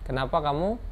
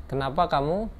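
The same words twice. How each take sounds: The two takes are said the same way.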